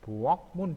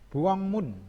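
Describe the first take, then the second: First: The consonant before m is said as k. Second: The consonant before m is said as ng.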